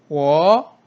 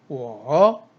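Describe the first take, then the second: First: The pitch rises from mid to high. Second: The pitch dips low then rises. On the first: "이성일 경우에는" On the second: "삼성"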